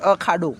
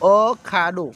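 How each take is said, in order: First: It is said smoothly without any pause. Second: There is a pause after the first syllable. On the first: A wrestling ground. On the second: There is no pit like this one.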